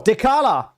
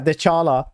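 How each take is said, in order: First: The middle consonant is a 'k' sound. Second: The middle consonant is a 'ch' sound. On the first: The speaker calls it right. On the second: The speaker calls it wrong. "They're like, yeah"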